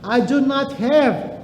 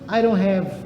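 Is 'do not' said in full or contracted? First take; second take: full; contracted. First: Do and not are said as separate full words. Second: Do and not are joined into one contracted word. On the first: "Quando eu falo assim" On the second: "eu posso contrair"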